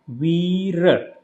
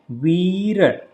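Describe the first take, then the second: Both takes have the same delivery.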